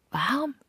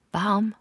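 First: "warm?" rising steeply very high in disbelief; shocked question. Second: Loud, high outraged "Warm" shouted across the water; incredulous call. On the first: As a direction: ask it like she can't believe her ears. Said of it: "Ungläubig erschrocken". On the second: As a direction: call it out in shock, louder and higher. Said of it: "rief sie mir zu". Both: Acted.

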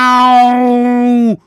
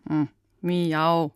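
First: A long, high, loud yowling miau; loud cat meow. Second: A timid, half-hearted cat meow; weak meow. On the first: Shown as a demonstration. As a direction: belt out a full cat's meow. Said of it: "So geht das". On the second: Pretend. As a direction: mumble a shy little miau. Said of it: "was war das denn?".

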